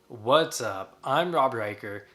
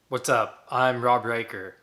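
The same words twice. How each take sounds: First: It is said in a happier, upbeat tone. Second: It is said in a less happy, flat tone.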